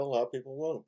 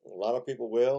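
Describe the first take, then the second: First: Won't dropped with a falling tune, a little softer; stress on won't. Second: Will lifted with a rising tune; stress on will. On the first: Host weighing fans of the game, "won't" falling softer. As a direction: let "won't" fall as the answer. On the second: Host weighing fans of the game, "will" on a rising note. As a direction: lean up into "will" as the first half. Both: Real, not acted. Contrast will versus won't.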